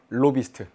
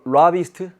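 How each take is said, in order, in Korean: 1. 한국식 'lo' 모음으로 발음합니다. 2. 영어식 'la' 모음으로 발음합니다. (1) "발음이 마음에 안 듭니까?" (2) "어떻게 발음하더라? 그, 라, 라비스트? 뭐 이런 식으로"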